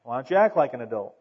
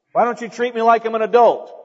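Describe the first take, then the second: First: Lower, quick comeback; dry retort. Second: Higher, louder mock protest; complaining youngster. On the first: Acted. Adult answers a young person demanding respect, dry retort. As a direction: throw the complaint straight back, dryly. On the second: Preacher mimics young people demanding adult treatment, complaining. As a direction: imitate a youngster demanding respect. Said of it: "Sometimes young people say".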